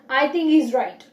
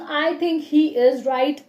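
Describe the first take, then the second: First: 'He is' is shortened and run together quickly. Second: Every word is said fully and separately. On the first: "I can say I think he's right. I think we have changed he into es" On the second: "Instead of saying I think he is right"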